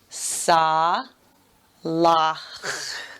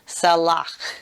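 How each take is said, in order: First: It is said slowly, syllable by syllable. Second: It is said quickly as one smooth word. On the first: "let's sound it out very slowly" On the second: "Let me do that quickly"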